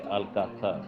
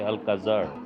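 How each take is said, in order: First: The z is not said like an English z. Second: The z is said like an English z. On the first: The speaker calls it right. "You have to say" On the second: The speaker calls it wrong. "the Z sound cannot be pronounced as an English Z, so you cannot say"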